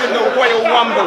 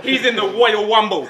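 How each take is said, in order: First: "Royal Wumble" again with w for r, Wumble for Rumble; says w for r. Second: "Royal Wumble" with w for r, Wumble for Rumble; says w for r. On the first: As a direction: repeat "Royal Wumble", r turned into w. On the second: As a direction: say "Royal Wumble" swapping r sounds for w. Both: Retold or imitated. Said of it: "can't pronounce his R's".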